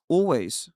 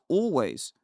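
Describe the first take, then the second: No difference in how they are said.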